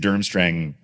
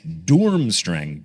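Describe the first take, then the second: First: The first vowel sounds like 'uh'. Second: The first vowel sounds like 'ooh'. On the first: The speaker calls it wrong. "I've been saying Durmstrang I, apparently incorrectly" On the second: The speaker calls it right. "the pronunciation of Durmstrang is Doormstrang"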